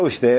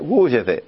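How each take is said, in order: First: The first syllable is short, without lengthening. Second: The first syllable is drawn out and lengthened. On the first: The speaker calls it wrong. "לא הוא שתה" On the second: The speaker calls it right. "מי שמדייק, מי שיודע"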